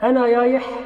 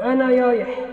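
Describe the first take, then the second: First: The r sound is said as y. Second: The same.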